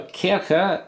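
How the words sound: It is said the German way, ch like h. "CH is just pronounced as kind of a H"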